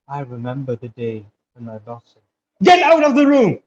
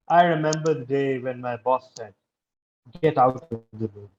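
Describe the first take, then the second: First: The boss's line is shouted loudly. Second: The boss's line is said in a flat tone.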